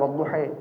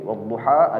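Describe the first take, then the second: First: The final vowel shifts strongly toward 'i'. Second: The final vowel is a plain open 'a'. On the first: "imalah besar yang wadduhi" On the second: "Seperti wadduha"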